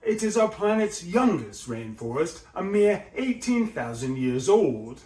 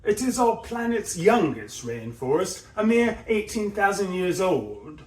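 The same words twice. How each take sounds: First: Rise and fall. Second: Higher documentary narration, rising on our and mere; Attenborough narration. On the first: Shown as a demonstration. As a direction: rise on our, fall on eighteen to finish. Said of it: "we've got the rise and fall there". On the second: Retold or imitated. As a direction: narrate like a nature film. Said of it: "how he does it in subsequent phrases".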